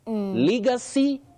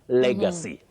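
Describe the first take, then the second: First: The first vowel is not a mid-front E. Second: The first vowel is a mid-front E. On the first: The speaker calls it wrong. "Many people say legacy. Legacy, no" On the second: The speaker calls it right. "This E takes the sound E, what we call the mid-front sound E"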